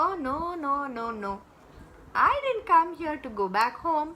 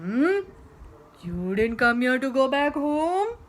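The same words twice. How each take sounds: First: Put-on high, protesting girl; Mohini. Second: Loud, drawn-up questioning; incredulous monster. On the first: Girl refusing to be sent home, high protest. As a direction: refuse brightly, quickening as it goes. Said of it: "said Mohini". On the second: Acted. Monster questioning the stubborn girl, loud incredulity. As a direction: echo it back, climbing in disbelief. Monster echoes her in disbelief.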